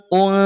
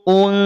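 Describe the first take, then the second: The two takes are said the same way.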